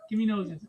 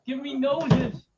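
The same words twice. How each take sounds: First: Said in the usual way. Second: "Give me noses" slow, higher, each word stretched; drawn-out insistence. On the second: Real, not acted. Dad pressing his daughter for noses, "noses" drawn out insistently. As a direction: lean hard and long on "noses".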